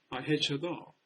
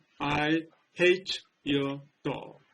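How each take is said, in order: First: Hate and your blend together into one sound. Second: Each word is pronounced clearly and separately. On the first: "자연스러운 그러한 발음체로 얘기한다면" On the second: "또박또박 발음한다면"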